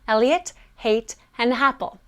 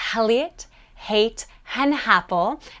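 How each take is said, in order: First: Each word starts with a barely audible H. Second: Each word starts with a clearly audible H. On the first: "make it smaller and smaller" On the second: "put a mini little H sound on the beginning of your words that have vowels"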